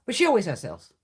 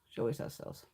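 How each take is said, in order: First: Said in the usual way. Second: Softer repeat, breathed under the breath; repeating the remark in a whisper to herself; whispered aside. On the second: Real, not acted. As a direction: say it again almost to herself. Repeated line, softer take.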